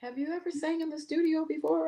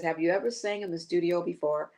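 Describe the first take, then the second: First: Sly's sister asking. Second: Said in the usual way. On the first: Retold or imitated. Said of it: "then Sly's sister said". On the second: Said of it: "She says".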